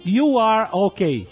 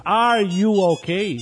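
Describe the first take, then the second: First: "You are okay" as a slow, deliberate statement; statement tune. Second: "Are you okay?" as a slow, deliberate question. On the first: Contrasting word order for listeners, "You are okay" as a statement. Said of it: "isso é uma afirmação". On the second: Contrasting word order for listeners, "Are you okay?" as a question. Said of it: "isso já é uma pergunta". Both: Shown as a demonstration.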